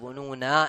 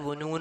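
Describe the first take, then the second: First: It ends on a lengthened final vowel. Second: It ends on the consonant, without a vowel. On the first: The speaker calls it right. "വുനൂന എന്നാണ് നീട്ടി നിർത്തണത്" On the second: The speaker calls it wrong. "വുനൂൻ എന്നല്ലല്ലോ നിർത്തണത്"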